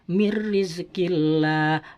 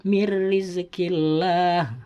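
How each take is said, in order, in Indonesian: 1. Bunyi n melebur menjadi r ganda. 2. Bunyi n melebur menjadi r ganda.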